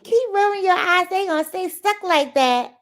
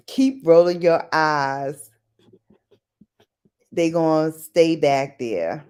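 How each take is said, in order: First: High, loud mock scolding. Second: Low, drawn-out warning; slow warning. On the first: Repeating the eye-rolling saying for viewers, high mock scolding. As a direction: pitch it up like a nagging warning. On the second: Retold or imitated. Recalling an old saying for viewers, slow low warning. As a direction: say it slowly, pitched down and firm. Recites a remembered parental warning.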